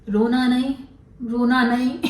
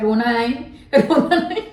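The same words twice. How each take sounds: First: Said in the usual way. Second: Sarcastic imitation of consoling; mocking comfort. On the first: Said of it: "निशा रोती थी". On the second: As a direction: tease her with a sing-song रोना नहीं. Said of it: "आज हम लोग बोल रहे हैं".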